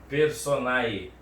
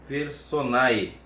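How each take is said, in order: Both takes have the same delivery.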